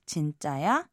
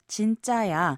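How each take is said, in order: First: The pitch rises at the end. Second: The pitch falls at the end. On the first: It asks whether something is true. "Raise the end of the phrase and say" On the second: It states that something is true. "a casual way of saying it's true"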